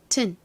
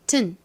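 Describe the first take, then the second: First: The vowel drops, leaving a short tn sound. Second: The vowel drops, leaving a short tn sound.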